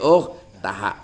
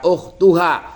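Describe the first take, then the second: First: The vowel before the final syllable is a. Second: The vowel before the final syllable is u. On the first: The speaker calls it right. "tapi ukhtaha" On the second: The speaker calls it wrong. "jangan dibaca ukhtuha"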